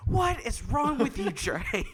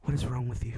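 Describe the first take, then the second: First: High, mock-shouted scolding; imitated exasperated mom. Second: Said in the usual way. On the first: Mom scolding son over sixty dollars, mock exasperated shout. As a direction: shriek it lightly as a fed-up mother.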